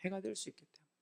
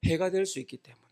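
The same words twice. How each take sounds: First: Very soft, almost under the breath; hushed repeat. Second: Said in the usual way. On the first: Real, not acted. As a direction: echo it very quietly. 같은 말을 낮춰 되풀이. (아주 작게 되뇌듯)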